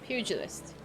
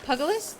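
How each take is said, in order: First: The first syllable sounds like "pew". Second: The first syllable sounds like "pug". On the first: The speaker calls it right. "The first syllable is pew" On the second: The speaker calls it wrong. "Did I say it wrong?"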